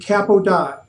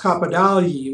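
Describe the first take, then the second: First: The name is said with an anglicized pronunciation. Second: The name is said with Italian pronunciation. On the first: This is how a local teacher said it, later adopted by the family. "the teacher pronounced his name" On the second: This is the original pronunciation from the home country. "in Italian it's pronounced"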